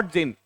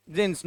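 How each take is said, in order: First: "jean" with no final s; wrong singular form. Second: "jeans" with a final s sound; correct plural form. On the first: Teacher warning students off the mistake, "jean" without s. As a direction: stop "jean" on the n. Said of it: "not jean". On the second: Teacher giving students the rule, "jeans" ending in s. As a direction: finish "jeans" on a voiced or hissed s. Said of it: "Always use". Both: Shown as a demonstration.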